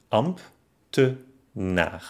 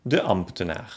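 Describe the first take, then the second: First: Amb-te-naar, slow and separated; long gaps inside ambtenaar; ambtenaar by syllables. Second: Said in the usual way. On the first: Shown as a demonstration. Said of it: "ob die entstandenen Silben". (ambtenaar langsam in Silben) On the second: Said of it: "Zum Beispiel".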